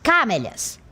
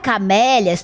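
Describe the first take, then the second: First: The stress is on the first syllable. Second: The stress is on the second syllable. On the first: The speaker calls it wrong. "para a primeira sílaba, ficaria camélias. Não é assim que se pronuncia" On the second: The speaker calls it right. "não seria na primeira e nem na última? Não"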